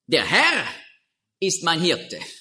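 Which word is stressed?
Herr. The stress is on the word Herr.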